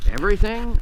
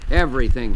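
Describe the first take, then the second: First: Everything? asked on a sharp rising tune, pitched higher; incredulous question. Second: Everything, repeated lower with a firm falling tune; flat repetition. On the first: Counsellor doubting the despairing man, rising question. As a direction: question the word Everything in disbelief. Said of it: "I asked". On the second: Despairing man insisting to the counsellor, flat falling repeat. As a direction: drop the word Everything down flatly, final. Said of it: "he repeated". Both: A narrator's reading.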